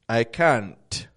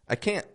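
First: The final T is strongly released. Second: The final T is barely heard. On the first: The speaker calls it wrong. "you're making too strong of a T" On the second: The speaker calls it right. "What they're listening for is"

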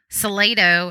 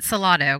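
First: It is said with a Texan English pronunciation. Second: It is said with a Spanish pronunciation. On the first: This is how locals who grew up there say it. "Salado is how, growing up in Texas, I pronounce it" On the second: This is how the original language says it. "according to Google Translate, that is actually how I'm supposed to be saying it"

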